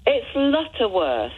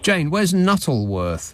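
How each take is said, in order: First: "Lutterworth" said with an L, "Lutter-worth"; "Lutterworth" corrected, stressing the L; correct place name. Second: "Nuttleworth" said with an N, "Nuttle-worth"; "Nuttleworth" mispronounced with an N at the start; wrong place name. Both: Real, not acted.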